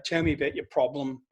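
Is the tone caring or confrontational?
caring. It is said in a warm, caring tone. The speaker calls it right. "if I was being empathetic"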